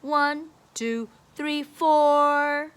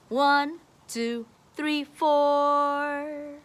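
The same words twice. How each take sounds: The two takes are said the same way.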